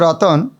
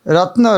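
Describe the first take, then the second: First: A vowel separates the t and the n. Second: The t and n are joined with no vowel. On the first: This is the poetic form used to fit the meter. "एक कविता का शब्द में रत्न रतन" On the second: This is the everyday form of the word. "धन रत्न बोलते हैं"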